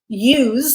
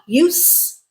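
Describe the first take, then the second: First: The final consonant is voiced, like a z. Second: The final consonant is unvoiced, like an s. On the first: It is the verb. "voiced was verb" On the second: It is the noun. "unvoiced was the noun"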